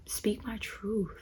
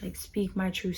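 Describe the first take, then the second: First: Slow soft whisper; whispered truth. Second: Said in the usual way. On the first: Shown as a demonstration. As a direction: breathe the words "speak my truth" slowly, almost silent.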